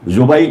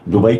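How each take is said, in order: First: The word begins with a z-like sound. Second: The word begins with a d sound. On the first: "जुबई था" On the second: "दुबई कर लिया"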